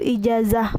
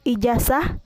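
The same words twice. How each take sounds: First: The middle consonant is a z sound. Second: The middle consonant is an s sound. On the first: The speaker calls it right. "yang benarnya yaitu ijazah menggunakan Z" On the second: The speaker calls it wrong. "fonem Z diucapkan menjadi S. Contoh salahnya yaitu ijazah"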